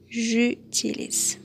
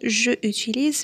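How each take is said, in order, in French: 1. La voyelle de je est supprimée devant le verbe. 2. La voyelle de je est gardée devant le verbe. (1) "mais on va dire j'utilise" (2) "on va pas dire je utilise"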